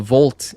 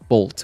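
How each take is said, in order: First: The name begins with a V sound. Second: The name begins with a B sound. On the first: "what you meant was uh" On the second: "the Korean pronunciation is Bolt with a B"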